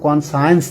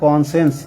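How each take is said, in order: First: It is said with three syllables, con-si-ence. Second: It is said with two syllables, con-shence. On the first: The speaker calls it wrong. "উচ্চারণ কিন্তু কনসায়েন্স না" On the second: The speaker calls it right. "উচ্চারণ হবে কনসেন্স"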